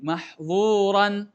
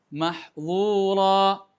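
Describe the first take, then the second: First: The word ends with a clear n sound. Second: The word ends in a long a, no n. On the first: The word runs on into the next verse. "Secara bunyi dia seperti ini" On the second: The reader pauses at the end of the verse. "Kalau kita wakaf ... mahdzura ... Alifnya berfungsi"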